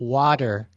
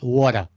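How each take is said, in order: First: It is said in a general, non-New York accent. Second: It is said in a New York City accent. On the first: "If you're not from New York City" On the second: "not water"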